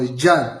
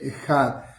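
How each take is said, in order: First: The middle consonant is a French 'j' sound. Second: The middle consonant is not a French 'j'.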